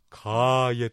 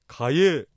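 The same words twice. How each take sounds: First: The first vowel is lengthened. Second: The first vowel is short. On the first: The speaker calls it right. "かを伸ばしてかえと言います" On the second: The speaker calls it wrong. "かえじゃなくて"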